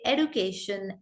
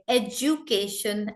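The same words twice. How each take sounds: First: American "education" with a d sound, "ed-u-cation"; American pronunciation. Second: British "education" with a j sound, "ej-u-cation"; British pronunciation. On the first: Teacher showing how Americans say it, American "education". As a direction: say "education" with a plain d, no j. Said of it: "Americans say education". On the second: Teacher showing the school-learned way, British "education". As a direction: say "education" with a j in place of d. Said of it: "we say words like education". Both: Shown as a demonstration.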